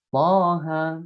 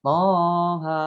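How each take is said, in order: First: Toha with a two-beat vowel, brisk; short Toha. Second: Toha stretched and sung far too long; overlong Toha. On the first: Teacher giving the correct short reading to students. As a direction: say Toha short, not stretched. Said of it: "Nah, dibacanya". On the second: Teacher warning students against the stretched reading. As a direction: drag out Toha as the wrong example. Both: Shown as a demonstration.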